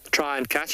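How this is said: The word try is strongly stressed.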